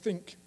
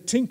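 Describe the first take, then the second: First: The word begins with a 'th' sound. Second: The word begins with a 't' sound. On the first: This is the standard pronunciation. "So I say it like this" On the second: The speaker sounds Irish. "You can say tink as well. You sound like an Irish person"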